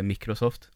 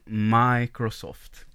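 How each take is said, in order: First: It is said with a Swedish pronunciation. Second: It is said with an American pronunciation. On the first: It teases someone who is fussy about pronunciation. "Man kunde reta honom och säga Microsoft" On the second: It corrects the teasing pronunciation. "så att det skulle uttalas på amerikanska hela tiden"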